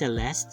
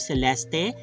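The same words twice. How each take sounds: First: The final E is silent. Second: The final E is pronounced. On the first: This is how it is said in America. "they pronounce it as Celeste, silent E at the end" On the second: This is how it is said in the Philippines. "every syllable is pronounced, or every letter is pronounced"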